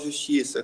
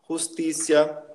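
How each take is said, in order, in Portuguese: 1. A primeira consoante é um som suave, como zh. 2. A primeira consoante é um som duro e gutural. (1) "a gente não fala justiça como no português" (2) "a gente fala como se fosse um R"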